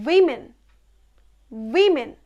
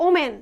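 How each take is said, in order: First: উইমেন said WI-men; উইমেন as falling "wimmen"; correct pronunciation. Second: ওমেন said o-men, no w; common mispronunciation. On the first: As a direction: say উইমেন with "wi" first. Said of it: "but it's not ওমেন, it's". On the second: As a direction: say ওমেন starting on a plain o. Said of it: "আমরা বলি". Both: Shown as a demonstration.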